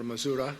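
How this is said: It is said in an American accent.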